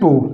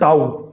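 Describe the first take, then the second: First: The word ends in a plain 'o' vowel. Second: The word ends in an 'ow' glide. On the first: This is the reading as written. "इसे क्या पढ़ते हैं, टो" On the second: This is the everyday spoken reading. "आम बोलचाल की भाषा में ... टो की जगह पे कह देते हैं क्या, टाउ"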